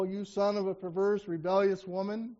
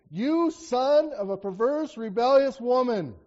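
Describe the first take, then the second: First: Said in the usual way. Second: Slow, louder, stretched curse; angry rebuke. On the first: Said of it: "doesn't seem very kind". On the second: Acted. Saul cursing his son Jonathan, slow and angry. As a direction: drag out "You son of a perverse, rebellious woman" with rising anger. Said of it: "he responds in anger".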